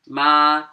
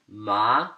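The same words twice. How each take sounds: First: It is said with the first tone. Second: It is said with the second tone. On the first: It means mom. "First accent" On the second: It means numb. "second tone"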